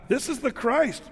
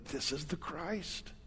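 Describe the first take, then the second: First: Higher, bright declaration of faith; a lifted declaration of faith; emphatic declaration. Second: Much softer, slow, low confession; hushed confession. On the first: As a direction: announce it like the right answer. Quoting those who got it right. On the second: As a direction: say it almost under your breath, reverently. Few people quietly confess it. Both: Acted.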